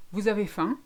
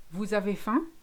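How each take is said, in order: First: Vous avez faim falling flat, no rise on faim; flat statement. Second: Vous avez faim with faim rising at the end; rising question. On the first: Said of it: "it's a statement". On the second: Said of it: "the voice goes up at the end". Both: Shown as a demonstration.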